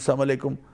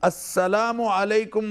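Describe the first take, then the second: First: The opening syllable is dropped from the greeting. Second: The opening syllable is fully said in the greeting. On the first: It wishes death on the listener. The speaker calls it wrong. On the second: It wishes peace on the listener. The speaker calls it right.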